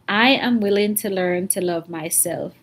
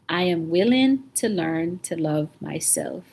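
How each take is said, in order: First: It is said warmly with a smile. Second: It is said warmly with a smile.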